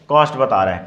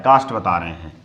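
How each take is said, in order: First: कॉस्ट with a rounded 'aw' vowel; mistaken vowel. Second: कास्ट with an open 'aa' vowel, lower pitch; corrected vowel. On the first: Teacher giving the word to be corrected, कॉस्ट with 'aw'. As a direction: say कॉस्ट like English 'cost', lips rounded. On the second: Teacher correcting the word from cost, कास्ट with open 'aa'. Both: Shown as a demonstration. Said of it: "कॉस्ट नहीं, कास्ट बता रहे हैं".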